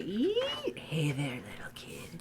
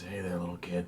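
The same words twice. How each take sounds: First: Creepy whisper. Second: Creepy voice. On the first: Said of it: "plays a creepy sound". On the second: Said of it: "That creepy sound is". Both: Pretend.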